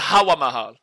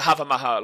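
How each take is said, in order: First: The first word has a W sound in the middle. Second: The first word has a V sound in the middle. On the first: "it might be the Hawa Mahal" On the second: "they pronounce it the Hava Mahal over here"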